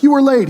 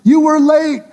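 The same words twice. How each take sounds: First: High, loud crowd complaint; hammed-up high reproach; mock protest. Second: Very high, loud mock wail; shrieky, drawn-out acted accusation; hammed-up wailing protest. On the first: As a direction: cut in with an acted accusation. Crowd protests to Jesus in skit. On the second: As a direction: crowd at the peak of its complaint. Crowd protests again, more worked up.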